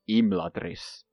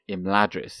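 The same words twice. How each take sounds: First: The stress falls on the first syllable. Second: The stress falls on a later syllable. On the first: The speaker calls it right. "So it's like on the im" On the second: The speaker calls it wrong. "it isn't"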